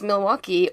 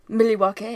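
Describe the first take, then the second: First: Milwaukee is pronounced the usual English way. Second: Milwaukee is pronounced the Algonquin way.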